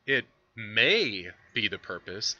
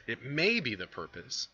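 First: May drawn out and stressed, said slowly; slow reading with may stressed. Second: Said in the usual way. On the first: Retold or imitated. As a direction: lean hard on may. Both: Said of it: "emphasis his".

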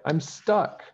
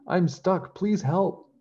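First: High, worried realisation, not yet shouting; the maid finds herself trapped up the bed; higher, alarmed little cry; dismayed. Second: High, loud calling out; high, louder pleading shout; shouting for help. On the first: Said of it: "Peg cried". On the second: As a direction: call down to the castle for rescue. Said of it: "she shouted as loudly as she could". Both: A narrator's reading.

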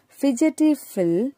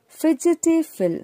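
First: "fidgety" said fij-i-tee, higher; correct pronunciation. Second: "fidgety Phil" with a hard g, fidgeti; "fidgety" said fid-get-ty, the wrong way; wrong pronunciation. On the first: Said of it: "We read it as". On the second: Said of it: "we don't read it as fidgety Phil". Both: Shown as a demonstration.

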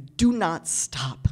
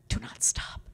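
First: Each word spaced out and heavy; deliberate, slow urging; slow, firm command. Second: Breathy whispered repeat. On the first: Speaker urging the young audience, slow and firm. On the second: Speaker repeating her plea to the audience in a whisper. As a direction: drop to a bare whisper. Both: Shown as a demonstration.

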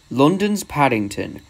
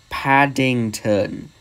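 First: Slow, firm correction; insistent. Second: "Paddington" very slow, syllable by syllable; emphatic repeat. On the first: Duck arguing with Gordon about London, insistent. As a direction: state it as settled fact. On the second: Duck hammering home "Paddington" to Gordon, very slowly. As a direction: spell out "Paddington." with each syllable stretched. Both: Acted.

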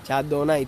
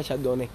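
First: Chardonnay ending in "ai"; newly learned pronunciation. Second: Chardonnay ending in "né"; his former pronunciation. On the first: Streamer repeating viewer's correction, Chardonnay ending "nai". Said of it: "Todos los días se aprende". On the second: Streamer recalling what he thought, Chardonnay ending "né". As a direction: say Chardonnay as "char-do-né". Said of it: "Yo pensaba que era". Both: Shown as a demonstration.

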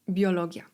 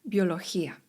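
First: Said in the usual way. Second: "Biologia" with a rasped H for the G, "biolohía"; G as "chi". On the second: Shown as a demonstration. Teacher showing Spanish G before I, "Biologia" said as "biolohía". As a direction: say "Biologia" as "bio-lo-HEE-a". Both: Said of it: "wymawiamy to jako chi".

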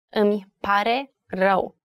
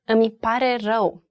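First: "Îmi", "pare", "rău" each set apart by pauses; word by word. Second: Said in the usual way. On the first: Shown as a demonstration. Teacher showing learners "Îmi pare rău" is three words, pausing between each. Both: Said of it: "Three words".

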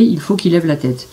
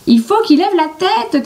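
First: Said in the usual way. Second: Much higher shouted line; shouting. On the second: A narrator's reading. Billy shouting from the tree to Jean-Claude. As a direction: yell it down from the tree. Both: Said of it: "crie Billy".

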